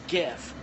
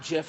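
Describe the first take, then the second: First: The word begins with a hard g sound. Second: The word begins with a soft j sound. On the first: The speaker calls it right. "It's GIF, not" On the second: The speaker calls it wrong. "like the peanut butter"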